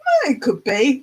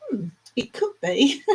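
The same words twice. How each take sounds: First: "Oh" leaps up higher, then "it could be" follows; a lifted, exclaimed "Oh, it could be"; emphatic "Oh, it could be". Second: A held "Hmm", then "it could be" at usual pitch; pondering "Hmm, it could be". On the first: Checking how Neil would say it, emphatic "Oh, it could be". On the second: Checking how Neil would say it, pondering "Hmm, it could be". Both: Shown as a demonstration. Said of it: "get the emphasis on that".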